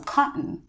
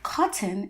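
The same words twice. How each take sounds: First: The middle t is stopped in the throat. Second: The middle t is clearly released.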